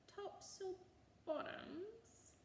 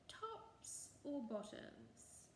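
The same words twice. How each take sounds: First: Far higher, baffled repeat; puzzled boggart. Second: Said in the usual way. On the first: A narrator's reading. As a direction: say it back as if it makes no sense. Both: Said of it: "he repeated".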